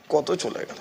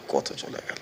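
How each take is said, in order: First: Said in the usual way. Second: কত চলে গেল breathed out in a whisper; whispered lament. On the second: Shown as a demonstration. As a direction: let it fade to a whisper. Repeats the phrase, then drops to a whisper.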